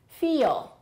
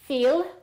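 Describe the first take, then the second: First: It sounds like two syllables, American style. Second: It sounds like one plain syllable, non-American. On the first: The speaker calls it right. "it'll sound like an American accent" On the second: The speaker calls it wrong. "it will sound like a non-native speaker might be saying it"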